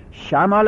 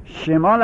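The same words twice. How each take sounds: First: شمال said with an open a, shamaal; شمال with fatha, shamaal. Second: شمال said with an e in the first syllable, shemaal; شمال with kasra, shemaal. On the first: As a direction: say شمال with a clear a in the first syllable. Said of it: "اگر به فتح بخونیم". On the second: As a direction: say شمال with a short e after sh. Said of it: "اگر به کسر بخونیم". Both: Shown as a demonstration.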